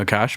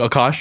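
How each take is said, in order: First: The name is said with an anglicized pronunciation. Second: The name is said with its native pronunciation. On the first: This is how many English speakers say it. The speaker calls it wrong. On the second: This is how the name is really said. The speaker calls it right. "but like it's like Akash"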